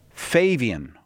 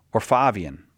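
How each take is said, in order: First: Fabian said FAY-vee-un; first vowel as "ay". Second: Fabian said FAH-vee-un; first vowel as "ah". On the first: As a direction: say Fabian with a long A, as in "day". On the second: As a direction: say Fabian with an open A, as in "father". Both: Shown as a demonstration. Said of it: "I don't, I'm not sure".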